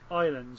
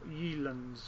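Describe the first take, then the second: First: The name begins with an 'eye' sound. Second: The name begins with a 'yeh' sound. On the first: This is the way the makers intend it. "apparently they want it to be pronounced... Islands" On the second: This is another possible intended way. "or Yelands, or whatever"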